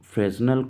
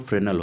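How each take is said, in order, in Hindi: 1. बीच वाली s की ध्वनि बोली जाती है। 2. बीच वाली s की ध्वनि मौन रहती है। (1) "फ्रेजनल को हम लोग फ्रेनल पढ़ते हैं" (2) "इसका जो सही प्रोनाउंसिएशन है वो फ्रेनल होता है"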